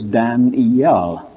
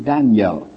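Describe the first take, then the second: First: Daniel said as Dan-E-L, three clear syllables; Dan-E-L in three beats. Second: Daniel said as Dan-yel in two syllables; Daniel in two quick beats. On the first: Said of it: "has three syllables". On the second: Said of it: "The English word two". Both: Shown as a demonstration.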